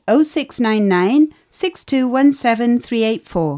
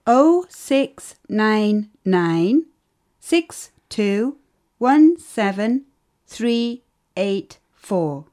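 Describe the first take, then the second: First: Quick run through the digits; rattled off fast. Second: Slow, careful digit by digit; slow and clear. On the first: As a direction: reel the number off briskly. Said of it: "Not so fast". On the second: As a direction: spell out each digit slowly for the listener. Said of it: "Not so fast. Can you say it again". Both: Acted.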